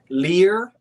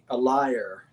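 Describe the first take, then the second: First: The vowel sounds like 'ear', rhyming with fear. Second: The vowel sounds like 'eye', rhyming with fire. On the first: The speaker calls it wrong. "No, it's not pronounced lear" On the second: The speaker calls it right. "I've never known it to be pronounced any other way"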